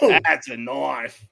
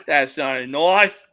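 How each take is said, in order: First: Lower, very slow, drawn-out punchline, falling; alligator hunter quote. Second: Lower, dismissive setup with a rising end; alligator hunter quote. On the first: Quoting the alligator hunter showing a real knife, low slow proud fall. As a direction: unveil the big knife slowly and proudly. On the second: Quoting the alligator hunter about a tiny knife, low rising dismissal. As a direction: wave off the little blade like a bush hunter. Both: Retold or imitated. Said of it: "the alligator hunter".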